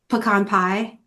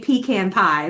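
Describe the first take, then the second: First: Pecan is said the non-Southern way. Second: Pecan is said the Southern Georgia way. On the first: The speaker has picked up the local way. "I guess I've been up here long enough" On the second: This is how the speaker's home region says it. "I'm from Southern Georgia, so I should say pecan pie"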